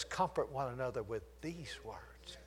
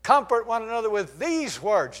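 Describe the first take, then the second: First: Softer, hushed reading of "Comfort one another with these words"; soft scripture reading. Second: "Comfort one another with these words" loud and higher, stress on "these"; ringing preaching. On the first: Preacher quoting the Bible softly to the church, hushed. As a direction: read "Comfort" gently, almost murmured. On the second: Preacher repeating the verse to the church, ringing loud. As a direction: proclaim "these words" to the room. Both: Shown as a demonstration. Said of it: "Do you know what your Bible says?".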